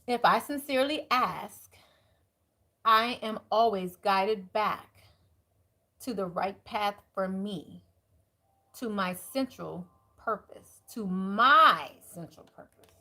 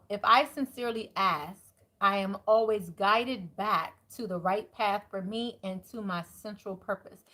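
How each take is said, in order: First: It is said a little more slowly. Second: It is said at a normal pace.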